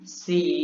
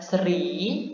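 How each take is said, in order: First: The R sound is silent after the S. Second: An R sound is pronounced after the S. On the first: The speaker calls it right. "R-nya tidak dibaca" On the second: The speaker calls it wrong. "bukan seri"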